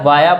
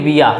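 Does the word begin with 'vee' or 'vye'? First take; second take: vye; vee. First: The first vowel sounds like 'eye'. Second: The first vowel sounds like 'ee'. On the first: The speaker calls it right. "वाया pronounce किया जाता है" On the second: The speaker calls it wrong. "इसको कई लोग इस तरह से pronounce करते हैं कि विया"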